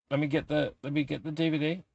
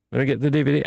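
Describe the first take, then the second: First: Much softer, muttered to himself; soft muttered aside while fetching the DVD; mumbled aside. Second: Said in the usual way. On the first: Real, not acted. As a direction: murmur it while reaching for the disc.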